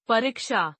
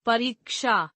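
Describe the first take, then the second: First: परीक्षा with short i, "parikshaa"; mispronounced. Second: Said in the usual way. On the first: Shown as a demonstration. Teacher showing an i error, mispronounced with short i. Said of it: "अशुद्ध". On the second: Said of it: "शुद्ध".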